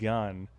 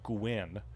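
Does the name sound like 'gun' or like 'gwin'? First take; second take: gun; gwin. First: The name rhymes with 'sun'. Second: The name rhymes with the end of 'penguin'. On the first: The speaker calls it wrong. "I know I said Gunn" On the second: The speaker calls it right. "so Gwyn, like penguin"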